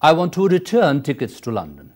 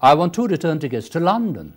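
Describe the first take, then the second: First: The word return carries the strongest stress. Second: The word London carries the strongest stress. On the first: The speaker wants a return ticket, not a single. "In the second, you are stressing return" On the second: The destination is what matters. "it is the place that is important"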